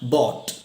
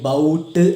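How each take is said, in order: First: The vowel is 'aw', with no g sound. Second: The vowel is 'ow', as in 'out'. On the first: The speaker calls it right. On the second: The speaker calls it wrong.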